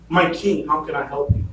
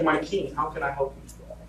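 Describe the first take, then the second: First: Said in the usual way. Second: Soft, meek plea to the king; bow low and offer help quietly; humble hush. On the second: Retold or imitated. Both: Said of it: "He was humble in what he was doing".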